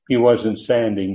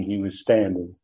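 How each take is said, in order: First: "standing" said without the T, as "sanding"; typo read aloud. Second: Said in the usual way. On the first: Shown as a demonstration. Teacher owning up to a typo in his notes, "standing" without its T. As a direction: drop the T from "standing", making it "sanding". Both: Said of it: "I left out the T".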